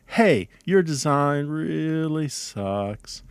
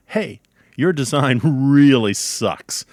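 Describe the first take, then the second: First: Drawn-out, slow, sorry-for-you delivery; sympathetic. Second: Loud, slow, heavy punch on "really sucks"; harsh verdict. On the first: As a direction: stretch it out gently as if pitying a colleague. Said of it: "I feel sorry for you". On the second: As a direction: lean hard on "really sucks" as a damning judgment. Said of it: "That means your design is very bad". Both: Shown as a demonstration.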